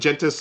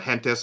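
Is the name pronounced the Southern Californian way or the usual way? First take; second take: usual; Southern Californian. First: The name is pronounced the usual way. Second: The name is pronounced the Southern Californian way.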